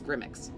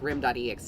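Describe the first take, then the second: First: The name is squeezed into one quick word. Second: The name is said in full, part by part.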